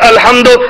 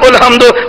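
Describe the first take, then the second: First: The word begins with an a vowel. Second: The word begins with a u vowel.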